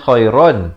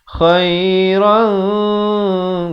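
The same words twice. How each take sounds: First: The final n is a plain, clear n. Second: The final n is hidden and nasalized, held longer. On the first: "asalnya khairan" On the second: "bila datang kaf khairan dua harakat"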